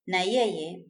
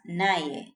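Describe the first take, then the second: First: It is said as two full words. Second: It is said as one contracted word. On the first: "Na yeye becomes naye" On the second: "Na yeye becomes naye"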